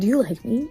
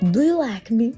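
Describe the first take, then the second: First: It is said in her normal voice. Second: It is said in a Borat impression.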